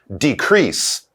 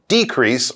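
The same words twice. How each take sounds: First: The stress is on the second syllable. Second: The stress is on the first syllable. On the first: It is used as a verb. "That would be the verb" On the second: It is used as a noun. "when you say it as a noun, you put the stress on the beginning"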